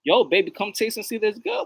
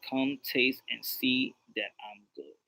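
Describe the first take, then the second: First: Pickup line. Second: Low, soft, slow scripture quote; quoting God. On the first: Acted. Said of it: "say that to a chick". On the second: Retold or imitated. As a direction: recite it quietly and unhurriedly. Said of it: "God says".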